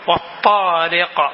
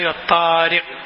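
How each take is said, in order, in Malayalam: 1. അവസാന വ്യഞ്ജനം കേൾക്കാവുന്ന കുതിപ്പോടെ പുറത്തുവിടുന്നു. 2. അവസാന വ്യഞ്ജനം കേൾക്കാവുന്ന പുറത്തുവിടലില്ലാതെ നിർത്തുന്നു. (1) "കാഫ് കേൾക്കണം" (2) "സമായി വത്താരിഖ് എന്ന് പോരാ"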